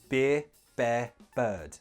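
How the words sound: A British accent with relaxed, soft R sounds. "In British English, there is no tension in the tongue when you make the R sound"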